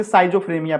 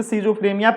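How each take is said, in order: First: साइजोफ्रेनिया opened as "sigh-zo"; "sai-zo" reading. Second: Schizophrenia opened as "see-zo"; "see-zo" reading. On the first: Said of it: "कुछ लोग इसे साइजोफ्रेनिया बोलते हैं". (साइजोफ्रेनिया को "साइजो" से शुरू करके बोलें) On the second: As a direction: say schizophrenia starting with a long "see". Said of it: "कुछ लोग इसे schizophrenia पढ़ते हैं". (schizophrenia को "सीजो" से शुरू करके बोलें) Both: Shown as a demonstration.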